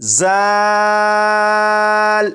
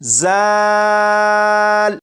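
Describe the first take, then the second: First: The first consonant has a sharp, whistling hiss. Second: The first consonant has a sharp, whistling hiss.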